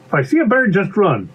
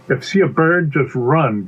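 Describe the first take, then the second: First: High-pitched obedient character voice; little pea repeating. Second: Firm instruction in an ordinary pitch; instructing bee. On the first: Pea recites bee's rule back, high and dutiful. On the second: Bee teaches pea a wilderness rule, firm. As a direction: lay down the rule, falling on "run". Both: Acted.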